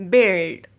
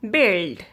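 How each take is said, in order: No difference in how they are said.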